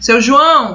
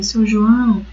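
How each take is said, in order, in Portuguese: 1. É dito com voz mais alta e firme. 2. É dito bem baixinho, em voz suave. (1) "um tom um pouco mais alto, mais firme" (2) "bem baixinho"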